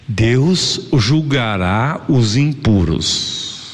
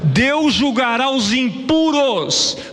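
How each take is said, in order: First: It is read slowly and deliberately. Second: It is read at a normal speed.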